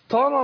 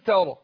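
First: The first consonant is heavy and emphatic. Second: The first consonant is light and thin. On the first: The speaker calls it wrong. "التاء هنا حرف مرقق وبعده مفخم يقول طرى. طرى ما تنفعش" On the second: The speaker calls it right. "انا رققت التاء ورحت داخل على تفخيم الراء"

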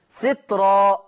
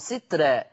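First: The r sound is heavy and thick. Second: The r sound is light and thin. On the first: "هكذا تقرأ بجواز التفخيم والترقيق" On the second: "هكذا تقرأ بجواز التفخيم والترقيق"

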